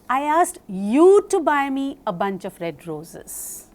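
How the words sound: The word red is stressed. "when I stress upon red"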